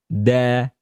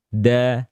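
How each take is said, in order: No difference in how they are said.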